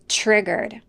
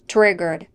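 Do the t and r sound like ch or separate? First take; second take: ch; separate. First: The t and r blend into a ch sound. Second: The t and r are pronounced separately. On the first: The speaker calls it right. "the T plus R in the word triggered make a ch sound" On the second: The speaker calls it wrong. "Not triggered"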